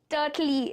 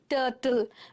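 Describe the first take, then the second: First: The word ends with an added ee vowel. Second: The word ends with an l sound. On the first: The speaker calls it wrong. "It's not that, right?" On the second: The speaker calls it right. "L is getting stressed, not E"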